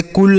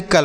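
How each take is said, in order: First: कुल rhyming with "pull"; wrong "cul" reading. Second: कल as in the start of "culture"; correct "cul" reading. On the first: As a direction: misread cul as कुल, with an oo vowel. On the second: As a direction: say cul as कल, with an uh vowel. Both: Shown as a demonstration. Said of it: "इसे कुल नहीं कल पढ़ेंगे".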